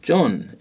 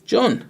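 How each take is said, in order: First: Higher surprised call of John; exclaimed name. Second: Very high startled call of the name; surprised exclaim. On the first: Teacher writes the exclaimed name, lighter surprise. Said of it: "exclamation mark". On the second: Spotting John unexpectedly, startled high exclaim. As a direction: gasp out John on seeing him. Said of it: "and you exclaimed". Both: Shown as a demonstration.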